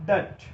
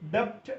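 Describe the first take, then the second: First: No b-like sound is heard before the t. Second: A b-like sound is heard before the t. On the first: The speaker calls it right. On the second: The speaker calls it wrong.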